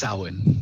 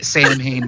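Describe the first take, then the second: First: The name is said with sounds unlike its spelling. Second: The name is sounded out as it is spelled. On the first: The speaker calls it right. "but it is produced Samhain. That is correct" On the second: The speaker calls it wrong. "it's written Sam Hain"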